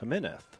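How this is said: The name is said as in Spain. The player would be from Spain. "if he was from Spain, it might be pronounced Jimenez"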